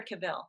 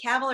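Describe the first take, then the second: First: Cavill said as kuh-VILL, stressed at the end; second-syllable stress. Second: Cavill said as CAV-ul, stressed at the front; first-syllable stress. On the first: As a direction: say Cavill with a short first syllable, then VILL. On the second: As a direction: say Cavill to rhyme with "gavel". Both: Shown as a demonstration. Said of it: "Which is the right pronunciation?".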